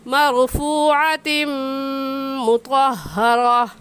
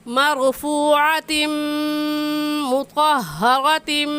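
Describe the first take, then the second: First: It stops at the end, with the ending dropped. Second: It runs straight on into the next words. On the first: "अगर हम वक़फ़ करेंगे तो यह आयत ऐसे पढ़ी जाएगी" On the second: "अगर हम मिलाकर पढ़ते हैं तो ऐसे पढ़ी जाएगी"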